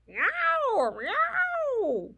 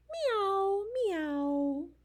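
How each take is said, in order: First: Loud, very high drawn-out yowls; tomcat yowl. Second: High meow, then a gentler one; cat meow. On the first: Reader plays the tiger tomcat, loud high yowling meows. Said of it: "And a tiger tomcat". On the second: Reader answers what the old cat says, cat meows. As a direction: mew like a house cat. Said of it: "What does the cat say?". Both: Acted.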